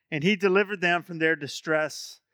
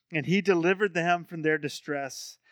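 The two takes are said the same way.

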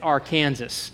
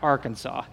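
First: The name is said the local Kansas way. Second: The name is said a different, non-local way. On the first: The speaker calls it right. "and it's Arkansas" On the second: The speaker calls it wrong. "not Arkansas"

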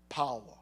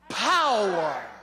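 First: It is said in a deep Darth Vader voice. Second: It is said in his normal voice.

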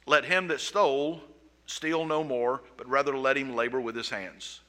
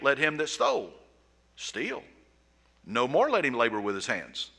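First: The break comes after 'no more'. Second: The break comes right after 'steal'.

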